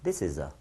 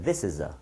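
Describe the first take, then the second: First: The words run together in one single breath. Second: The same.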